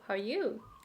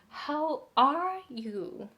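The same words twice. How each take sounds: First: The syllables run together quickly with momentum. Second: Each syllable gets an even, separate beat. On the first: The speaker calls it right. "it has the momentum" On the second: The speaker calls it wrong. "the rhythm is same. It doesn't have the momentum. It doesn't have the speed"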